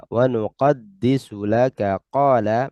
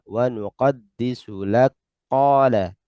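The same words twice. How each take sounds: First: Said in the usual way. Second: Slow Wa nuqaddisu lak qala with the kaf of lak run into qala; merged kaf into qaf. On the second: Shown as a demonstration. Teacher showing the merged reading after the written form. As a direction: clip laka to lak and fold it into the q. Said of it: "maka dibaca".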